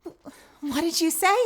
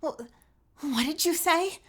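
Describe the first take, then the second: First: Put-on high line that cracks like a teenage boy; a botched high take with a crack in it; a girl's voice that breaks by mistake. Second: Put-on high, startled girl's voice, no crack; the retake without the crack; clean retake. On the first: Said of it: "Hello, teenage voice. Fucking voice crack". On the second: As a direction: try the gasp of shock again, smoothly. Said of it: "Let's try that again".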